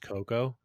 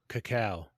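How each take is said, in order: First: It is said like co-co, two similar syllables. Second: It is said like ca-cow, ending in cow. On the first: The speaker calls it wrong. "it's not pronounced cocoa" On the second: The speaker calls it right. "that's the actual way to pronounce it"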